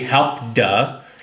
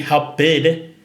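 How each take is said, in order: First: The word ends in a voiced d sound. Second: The word ends in an extra id syllable. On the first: "It's not going to be help duh" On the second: "it won't be help bid. It's not help bid"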